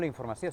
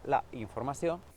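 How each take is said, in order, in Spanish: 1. La vocal del artículo se omite y se une a la palabra siguiente. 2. La vocal del artículo se pronuncia completa. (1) "no la informació" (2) "sinó la informació"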